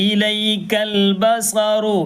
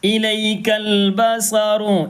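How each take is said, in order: First: ഇലൈക്കൽ ബസറു stretched slowly; repeated recitation. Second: ഇലൈക്കൽ ബസറു slow with clear "i"; recitation demo. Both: Shown as a demonstration. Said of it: "ഈ എന്നുണ്ട് അവിടെ".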